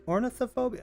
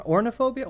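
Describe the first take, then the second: First: Ornithophobia with the "th", said "orna-tha-phobia"; higher, questioning ornithophobia with every syllable, "or-ni-tho-phobia"; trying out pronunciation. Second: Ornithophobia without the "th", said as "orna-phobia"; higher, questioning "orna-phobia" for ornithophobia; trying out pronunciation. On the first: Working out the word for bird phobia, trying ornithophobia with the "th" in. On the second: Working out the word for bird phobia, trying ornithophobia as "orna-phobia". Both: Real, not acted. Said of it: "what would that be".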